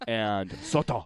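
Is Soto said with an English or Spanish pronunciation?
Spanish. Soto is said with a Spanish-style pronunciation. This is how local people say it. The speaker calls it right. "Instead of"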